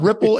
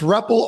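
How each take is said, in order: First: The first vowel sounds like 'rip'. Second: The first vowel sounds like 'rep'. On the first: The speaker calls it wrong. "it's not Ripple" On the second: The speaker calls it right. "it's REPL, R E P P L E"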